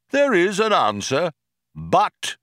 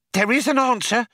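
First: Lightly voiced computer, measured and raised; pondering computer. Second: High-pitched, excited question; breathless excitement. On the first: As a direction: confirm it with measured weight. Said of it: "said Deep Thought". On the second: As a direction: blurt it high, hungry for confirmation. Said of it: "said Fook with breathless excitement". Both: A narrator's reading.

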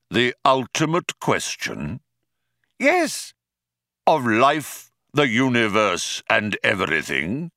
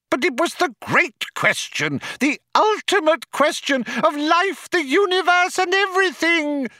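First: Said in the usual way. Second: Very high, louder anguished howl. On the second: A narrator's reading. Loonquall protests about the great question, high howl. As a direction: howl it desperately, high all through. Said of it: "howled Loonquall".

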